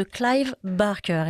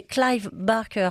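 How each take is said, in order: First: Clive Barker said the English way, Clive as "claive"; a light English accent on the name. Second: Said in the usual way. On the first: Shown as a demonstration. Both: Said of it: "pardon pour mon accent anglais".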